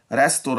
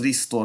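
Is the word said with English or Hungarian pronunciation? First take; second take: English; Hungarian. First: It is said with English pronunciation. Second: It is said with Hungarian pronunciation.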